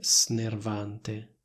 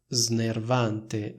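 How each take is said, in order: First: The s is voiceless, like a hiss. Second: The s is voiced, like a z. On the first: The speaker calls it wrong. "non riesco a pronunciare snervante" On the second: The speaker calls it right. "ho detto snervante"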